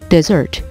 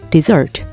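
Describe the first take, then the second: The two takes are said the same way.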